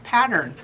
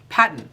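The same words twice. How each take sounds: First: It is said with an American accent. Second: It is said with an Australian accent.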